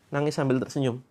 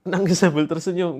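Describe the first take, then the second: First: Mild mock sob with a smile; crying while smiling. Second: Said in the usual way. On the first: Shown as a demonstration. Coach showing followers how to cry while smiling, mild mock sob. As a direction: demo a teary smile, understated. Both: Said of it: "Coba saya peragakan ya".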